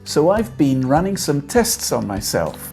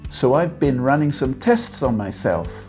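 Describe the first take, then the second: First: The word 'been' has a long ee vowel. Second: The word 'been' has a short i vowel. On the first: "Bean, like the seed of a plant that we eat" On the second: "Or bin, like the container you put your rubbish in"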